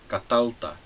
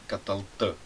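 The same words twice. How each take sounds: First: The stress is on the second syllable. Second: The stress is on the last syllable. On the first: It is said to a man. "aqui o acento está na segunda sílaba" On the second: It is said to a woman. "esta última sílaba é a sílaba acentuada"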